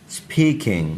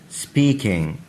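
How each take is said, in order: Both takes have the same delivery.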